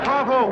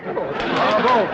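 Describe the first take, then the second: First: Louder, higher second bravo; rising excited cheer. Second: Loud, gushing bravo; excited praise. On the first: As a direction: top the first bravo with glee. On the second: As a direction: cheer it out with delight. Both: Acted. Banker gushing over rival's bravado.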